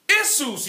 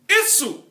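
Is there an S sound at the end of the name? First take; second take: yes; no. First: The name ends with an S sound. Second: The name ends without an S sound. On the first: This is the Latin way of saying it. "in Latin, you pronounce the S" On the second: This is the Greek way of saying it. "in Greek, you don't pronounce the S"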